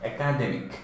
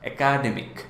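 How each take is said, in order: The two takes are said the same way.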